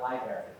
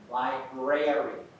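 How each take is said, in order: First: The word is mumbled with a syllable reduced. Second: Every syllable of the word is clearly enunciated. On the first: The speaker calls it wrong. "Not library" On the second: The speaker calls it right. "So make sure you enunciate"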